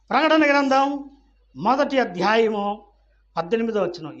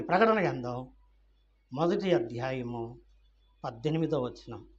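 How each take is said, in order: First: Raised, loud scripture reference; emphatic announcement. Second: Said in the usual way. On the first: Real, not acted. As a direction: call the reference out to everyone. Same reference re-announced loudly.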